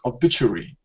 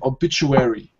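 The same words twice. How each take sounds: First: It is said with a British pronunciation. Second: It is said with an American pronunciation. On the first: "This word here in British English, it's obituary" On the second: "Now, in American, obituary"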